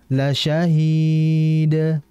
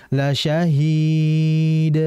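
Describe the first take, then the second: Both takes have the same delivery.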